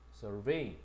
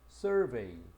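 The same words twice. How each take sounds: First: The stress is on the second syllable. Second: The stress is on the first syllable. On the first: It is the verb, meaning to examine or inspect. "동사는 어디 있다? 뒤에 있거든" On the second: It is the noun, meaning a questionnaire or study. "명사는 강사, 강세가 보통 앞에 있죠"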